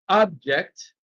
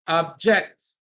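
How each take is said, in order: First: The stress is on the first syllable. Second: The stress is on the second syllable. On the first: It is used as a noun. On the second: It is used as a verb.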